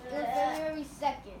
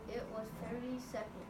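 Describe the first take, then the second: First: It is read with excited feeling. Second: It is read in a flat, plain way.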